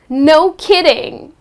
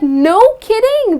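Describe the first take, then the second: First: It is said with a sarcastic tone. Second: It is said with a mildly surprised tone. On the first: The news has been heard many times already. "you are adding some sarcasm" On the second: The news is unexpected. "to express mild surprise"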